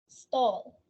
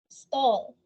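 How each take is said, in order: Both takes have the same delivery.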